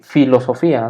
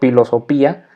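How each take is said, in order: First: The written P and H sound like F. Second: The written P and H are sounded separately. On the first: The speaker calls it right. "Se dice" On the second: The speaker calls it wrong. "lo voy a decir tal cual está escrito"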